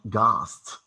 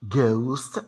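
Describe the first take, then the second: First: The vowel is a single sound. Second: The vowel glides as a diphthong. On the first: The speaker calls it wrong. "if you pronounce ghost like ghost" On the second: The speaker calls it right. "the diphthong O in ghost"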